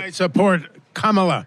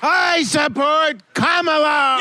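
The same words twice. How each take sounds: First: It is said at a moderate, not loud volume. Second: It is said loudly, nearly shouted.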